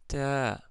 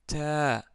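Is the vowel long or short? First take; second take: long; long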